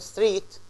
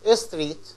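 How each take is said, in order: First: The consonant cluster is said without an extra vowel. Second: A short vowel is inserted into the consonant cluster. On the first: The speaker calls it right. "instead of saying" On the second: The speaker calls it wrong. "they say street ... And this is wrong"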